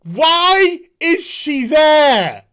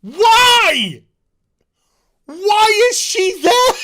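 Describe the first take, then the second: First: Laughing disbelief. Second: High, loud, slow disbelief; incredulous outburst. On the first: Laughing at a plot hole. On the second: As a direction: demand an answer from the writers. Ranting about a plot hole. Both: Real, not acted.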